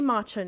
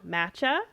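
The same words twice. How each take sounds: First: It is said with a non-Canadian pronunciation. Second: It is said with a Canadian pronunciation.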